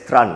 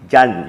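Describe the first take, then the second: First: The name begins with a clear tr sound. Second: The name begins with a soft j-like sound. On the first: The speaker calls it wrong. "You don't pronounce it as Tran" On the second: The speaker calls it right. "T R A N in Vietnamese means Jan"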